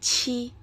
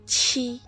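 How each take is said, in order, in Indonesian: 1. Konsonannya diucapkan dengan hembusan udara. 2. Konsonannya diucapkan dengan hembusan udara.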